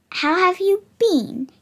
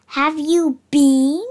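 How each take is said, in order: First: Said in the usual way. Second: "you been" slow and louder, leaning on "been" like bean; pun on bean. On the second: Shown as a demonstration. Narrator retelling his own pun to the listener, slow pun emphasis. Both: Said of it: "Get it?".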